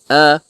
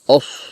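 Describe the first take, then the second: First: The vowel is open, like an a. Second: The vowel is rounded, like an o. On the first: The speaker calls it right. "It is a" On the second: The speaker calls it wrong. "don't read it os"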